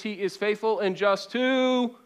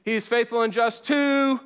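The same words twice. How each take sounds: First: Said in the usual way. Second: Louder, higher, with conviction; like you mean it. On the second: Shown as a demonstration. Preacher urging the room to say it with conviction. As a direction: call it out and mean it. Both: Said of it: "say it like you mean it".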